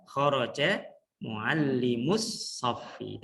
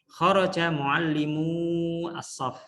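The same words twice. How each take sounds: First: Muallimus saffi drawn out very slowly to mark the plural; slow teacher reading with lengthened muallimus; long vowel stretched. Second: Kharaja muallimu as-saff read very slowly and carefully; slow, deliberate Arabic dictation; slow model reading. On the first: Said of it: "kalau dibaca panjang berarti itu jamak". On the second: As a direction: read it out like a teacher modelling for the class. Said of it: "baca ini guru ya harus bagus". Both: Shown as a demonstration.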